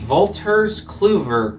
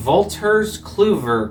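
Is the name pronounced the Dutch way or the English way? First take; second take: Dutch; Dutch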